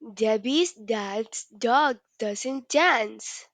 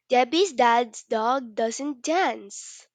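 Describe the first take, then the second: First: It is said at a slow pace. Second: It is said at a fast pace.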